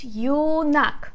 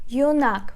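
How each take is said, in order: First: "юнак" split into two beats, ю and нак; syllable by syllable. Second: "Юнак" as one word, stressed on нак; stress on second syllable. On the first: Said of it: "Two syllables". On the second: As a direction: join up "Юнак", leaning on the final а. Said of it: "We put stress on the second syllable". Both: Shown as a demonstration.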